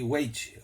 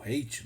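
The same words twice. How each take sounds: First: "weight" said for English height, with a w onset; "weight" with an opening w glide, unsure; uncertain English pronunciation. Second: "height" offered as a second, unsure attempt; softer, lower second try at "height"; alternative English pronunciation. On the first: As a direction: tentatively say "weight" as a guess at height. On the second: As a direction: tentatively say "height", dropping in pitch and volume. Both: Shown as a demonstration. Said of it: "não sei como é que pronuncia".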